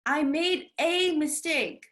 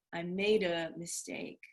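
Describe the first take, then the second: First: I made a mistake with a said as a full ay. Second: I made a mistake with a as a quick uh; reduced a. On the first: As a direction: stress the a as ay. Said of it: "Instead of saying a". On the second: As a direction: let a fall to uh. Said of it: "instead you say uh". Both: Shown as a demonstration.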